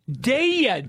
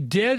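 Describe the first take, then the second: First: The word is drawn out into two syllables. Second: The word is said plainly in one syllable. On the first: The speaker calls it right. "It's a two-syllable word" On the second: The speaker calls it wrong. "don't say dead"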